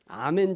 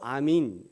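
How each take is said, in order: First: The final vowel sounds like 'eh'. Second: The final vowel sounds like 'ee'. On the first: This is the Hebrew form. "히브리에는 아멘 이렇게 하는데" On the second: This is the Aramaic form. "아람어에도 아민, 아민 이렇게 하고요"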